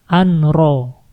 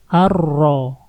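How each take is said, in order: First: A clear n sound is heard before the r. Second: The n sound merges into a doubled r. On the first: The speaker calls it wrong. "di sini nggak boleh dibaca anro" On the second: The speaker calls it right. "Kita masukin langsung ke ro"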